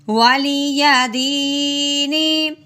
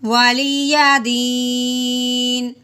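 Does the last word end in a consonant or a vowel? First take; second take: vowel; consonant. First: The last word ends with a short 'i' vowel. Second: The last word ends on a bare 'n' consonant. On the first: "नून जेरनी" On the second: "वक़फ़ की सूरत में मुतहर्रिक हरफ हो उसको साकिन कर देते हैं"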